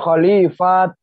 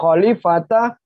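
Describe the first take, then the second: First: The word ends with a clipped t sound. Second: The word ends with a full ta syllable. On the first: "bukan khalifat" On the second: "Bukan khalifata"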